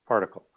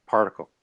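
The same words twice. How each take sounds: The two takes are said the same way.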